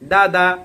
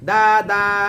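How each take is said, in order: First: The vowels are short and quick. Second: The vowels are drawn out slowly. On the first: The speaker calls it right. "খুবই স্পিড হবে" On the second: The speaker calls it wrong. "কিন্তু পরে আস্তে আস্তে টান দিয়া"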